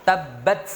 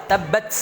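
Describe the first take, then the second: Both takes have the same delivery.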